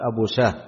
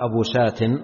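First: The name ends with an h sound. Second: The name ends with a t sound. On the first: The speaker calls it right. "أبو شاه تقرأ بالهاء في الوصل والوقف" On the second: The speaker calls it wrong. "ما يقال أبو شات في الوصل"

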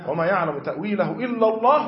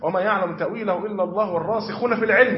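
First: The pause comes right after the word Allah. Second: The pause comes right after the words fil-ilm. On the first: Only God knows the true nature of the matter. "الوقف الأول على لزوم الوقف إلا الله، ركز معي ... وأقف وجوبا" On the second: Those firm in knowledge also know the interpretation. "وقف ابن عباس ... وأقف"

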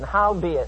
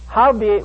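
First: The word is said plainly, without extra force. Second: The word is said with strong, forceful emphasis.

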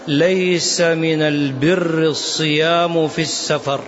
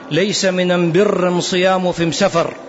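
First: The definite article is pronounced as al. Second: The definite article is pronounced as am. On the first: The speaker calls it right. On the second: The speaker calls it wrong.

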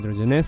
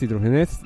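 First: The name is pronounced with Catalan sounds. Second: The name is pronounced with Spanish sounds.

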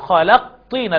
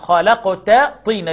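First: The t is merged into the following t-sound. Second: The t is kept separate before the t-sound. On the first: The speaker calls it wrong. "ما ينفعش أقول" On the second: The speaker calls it right. "لا،"

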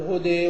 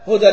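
First: The final vowel is tilted toward 'e'. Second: The final vowel is an open 'a'. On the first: The reader pauses on the word, so the tilting returns. "وإذا زال التنوين بالوقف ترجع الإمالة، تقول هدي" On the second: The word is joined to the next one, so the tilting is dropped. "هدى للمتقين مثلا سقطت الإمالة"

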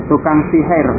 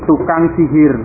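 No difference in how they are said.

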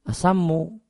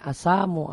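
First: The vowel after the s is short. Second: The vowel after the s is long. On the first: It means poison. "Kalau sam yang maknanya ratun itu pendek, tidak panjang" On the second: It means death. "Ini asamu alaik"

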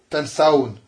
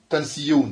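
First: The ending follows directly, with no y sound. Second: A y sound comes before the ending. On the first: The speaker calls it right. "on a mis le waouh jamara directement" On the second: The speaker calls it wrong. "Oslohu. Mais ça se dit pas pareillement"

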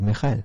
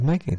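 First: The middle consonant is a throaty H sound. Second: The middle consonant is a hard K sound. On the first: This is the German way of saying the name. The speaker calls it right. "que se dice Mijael" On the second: This is the English way of saying the name. The speaker calls it wrong. "sé que no se dice Michael"

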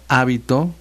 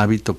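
First: The stress is on the first syllable. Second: The stress is on the second syllable. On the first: "con acento en la A" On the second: "sin acento"

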